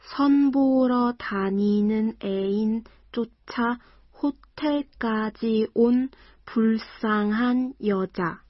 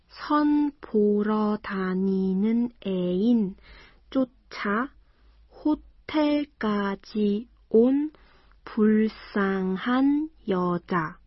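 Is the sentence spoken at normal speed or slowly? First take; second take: normal; slowly. First: The sentence is spoken at normal speed. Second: The sentence is spoken slowly.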